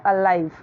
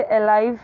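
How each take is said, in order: First: "अलाइव" with a weak first vowel and falling end; correct pronunciation of alive. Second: "अलाइव" opening on an E sound; "अलाइव" with ay instead of uh at the start; wrong pronunciation of alive. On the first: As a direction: say "अलाइव" as uh-LIVE. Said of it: "तो इसे अलाइव नहीं बोलना है". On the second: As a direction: say "अलाइव" as ay-LIVE. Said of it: "नहीं बोलना है". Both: Shown as a demonstration.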